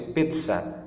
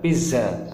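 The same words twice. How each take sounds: First: The middle consonant is a ts sound. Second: The middle consonant is a buzzing z sound. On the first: The speaker calls it right. "tapi pizza. Jadi seperti mengucapkan T S" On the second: The speaker calls it wrong. "bukan pizza"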